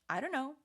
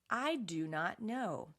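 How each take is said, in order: First: The words are contracted and run together. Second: Every word is said fully and separately. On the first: "Real spoken English" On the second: "Textbook English"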